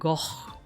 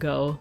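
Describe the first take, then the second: First: The word ends with a throaty rasping sound. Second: The word ends on a plain vowel sound. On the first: This is how Dutch speakers say it. "Dutch, Netherlandish, Flemish way to say it is like Goch" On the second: This is how Americans say it. "we Bear Americans say Van Gogh"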